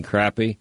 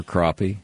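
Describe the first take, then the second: First: CRAPPIE said with the flat A of "cat"; first syllable of crappie like "crap"; crappie with short A. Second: CRAPPIE with an AH in the first syllable; first syllable of crappie like "crop"; crappie said as croppy. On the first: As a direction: say crappie to rhyme with happy. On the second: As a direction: say crappie to rhyme with poppy. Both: Shown as a demonstration. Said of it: "however you say that".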